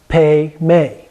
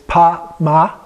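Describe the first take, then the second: First: Both vowels are pronounced as 'e'. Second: Both vowels are pronounced as 'a'. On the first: This is how it is actually pronounced. "but it's pronounced Pe-me" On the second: This is the form as it is written. "So it's Pa-ma"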